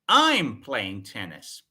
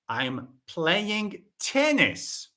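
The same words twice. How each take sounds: First: The first word is said louder than the rest. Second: The last word is said louder than the rest. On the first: It answers who is doing it. "The focus is on I" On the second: It answers which game is being played. "not football, no"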